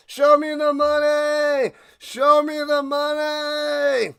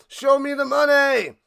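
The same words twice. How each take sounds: First: Loud, high, slow bellow of "Show me the money"; all-out shout answering the call for more; louder. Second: Shout. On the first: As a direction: yell it even harder on command. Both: Acted.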